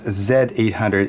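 The letter is pronounced the Canadian way. "I'm Canadian, so I pronounce it as Z800"

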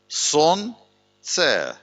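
It is split with a break after the first syllable. It means sleep is something. "а можна прочитати як сон-це"

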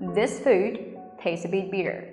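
The t sounds between vowels are soft flaps. "Nhưng mà anh Mỹ các bạn sẽ nói là"

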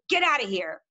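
It is said in an angry tone.

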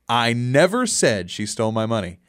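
The stress is on the word 'never'. The speaker denies ever saying it.

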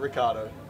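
The name is said with an Australian English pronunciation. "you'd say it the English way, Australian way"

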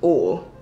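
It is said in a Southern US accent.

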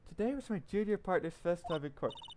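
It is said in an imitated woman's voice.

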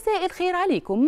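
It sounds like a showy advertisement pitch. The speaker sounds like a stranger selling something. The speaker calls it wrong. "انا كده انا بعمل اعلان"

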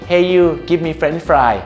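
It is said in a smiling, pleasant tone. The tone is nice but the words stay rude. "บางคนครับก็มายิ้ม ... อาจจะยิ้มน้ำเสียงดี"

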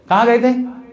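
It sounds accusing and disapproving.

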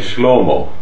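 The long vowel is pronounced as O. The speaker is from Tur Abdin. "a original long A vowel is pronounced as an O"

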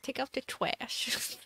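It is said in a cutesy baby-talk voice. "saying things in an uwu voice"

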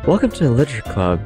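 It is said in a soft, soothing voice.

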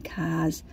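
The word is said in a Boston accent. "We say cars"

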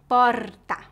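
The R is a vibrating, trilled sound. This is how people speak in the city of São Paulo. "Na capital, o R é vibrante"

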